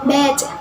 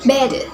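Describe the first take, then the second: First: It is spoken with a British accent. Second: It is spoken with an Australian accent. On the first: "In British accents" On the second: "In Australian accents"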